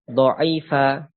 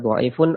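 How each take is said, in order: First: The word ends in a short a vowel. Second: The word ends in an -un sound. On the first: The word is treated as fixed with the second la acting on it. "Ini kalau kita baca mabni dengan fathah" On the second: The word is treated as a nominative subject. "Apabila kita baca rafa"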